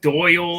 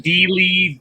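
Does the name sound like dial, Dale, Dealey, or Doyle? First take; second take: Doyle; Dealey. First: The name is said to rhyme with 'Doyle'. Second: The name is said like 'Dealey', two syllables. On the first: "I get so many different ones" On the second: "I get so many different ones"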